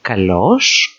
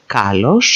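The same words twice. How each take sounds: First: Kalos as ka-LOS, rising at the end; Kalos, weight on LOS; stress on second syllable. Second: Kalos as KA-los, rising at the end; kalos, weight on KA; stress on first syllable. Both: Shown as a demonstration. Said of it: "same words being repeated here".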